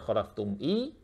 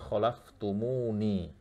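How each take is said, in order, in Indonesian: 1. Kata itu berakhir khalaftum lalu i saja. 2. Kata itu berakhir mu lalu ni. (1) "tidak dibaca khalaftum i" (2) "tapi khalaftumuni"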